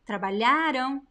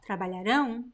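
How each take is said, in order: First: The stress is on the second-to-last syllable. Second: The stress is on the last syllable. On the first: The action happened in the past. "the stress of the syllable is lha. It is the second to last" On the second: The action will happen in the future. "the tilde indicates that that vowel is the stressed one"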